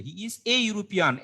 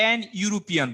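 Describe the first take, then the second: First: Slow "he is a European" with A drawn out; stress on A. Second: "an European" offered as a questioned option; wrong-option demo. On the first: Teacher gives students the right article, slow stress on "a". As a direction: lean slowly on "a" before European. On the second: Teacher quizzes students on the article, testing "an European". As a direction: put "an" before European as the doubtful choice. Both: Shown as a demonstration. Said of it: "an হবে না".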